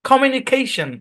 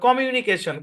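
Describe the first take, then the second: First: One syllable is clearly stressed above the rest. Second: All syllables are said evenly with no stress. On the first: The speaker calls it right. "ইংলিশের ভাই tone আছে ... মানে stress আছে" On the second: The speaker calls it wrong. "সব একদম এক টানে পড়ে"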